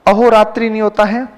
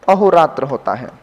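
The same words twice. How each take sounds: First: अहोरात्रि with the final i, rising; अहोरात्रि ending in i, lifted; wrong form, rising. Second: अहोरात्र without the final i, dropping low; अहोरात्र, lower and settled; correct form, falling. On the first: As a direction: present अहोरात्रि as the error. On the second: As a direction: state अहोरात्र as the answer. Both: Shown as a demonstration.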